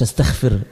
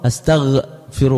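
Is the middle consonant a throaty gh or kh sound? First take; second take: kh; gh. First: The middle consonant is a voiceless kh sound. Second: The middle consonant is a voiced gh sound. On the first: The speaker calls it wrong. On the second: The speaker calls it right.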